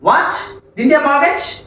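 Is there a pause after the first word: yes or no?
yes. There is a short pause after the first word. It expresses surprise that they mortgaged nothing. "Gap ఇచ్చి చదివితే meaning అది ఏంటి వారు తాకట్టు పెట్టలేదా"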